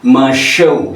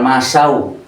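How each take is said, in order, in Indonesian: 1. Konsonan tengahnya bunyi 'sh'. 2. Konsonan tengahnya bunyi 's'. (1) "Masyau ya, bukan masau" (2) "bukan masau"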